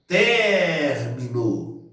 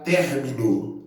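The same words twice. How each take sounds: First: Término called out with a long drawn-out TER; calling the word. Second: Said in the usual way. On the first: Shown as a demonstration. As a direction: stretch the first syllable of término, as if calling someone. (chamando "término", demorando bem no TER) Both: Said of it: "Aí vamos chamar a palavra".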